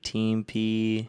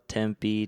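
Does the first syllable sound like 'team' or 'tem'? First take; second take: team; tem. First: The first syllable is said like 'team'. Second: The first syllable is said like 'tem'. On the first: The speaker calls it wrong. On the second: The speaker calls it right.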